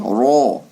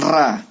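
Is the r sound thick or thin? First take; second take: thick; thin. First: The r and vowel are thick and heavy. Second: The r and vowel are thin and light. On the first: The speaker calls it right. "tapi ro, tebal" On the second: The speaker calls it wrong. "bukan ra"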